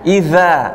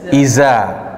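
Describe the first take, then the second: First: The middle consonant is a soft th sound. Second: The middle consonant is a buzzing z sound. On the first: The speaker calls it right. "Ujung lidah dengan gigi seri" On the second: The speaker calls it wrong. "Za menjadi huruf zai"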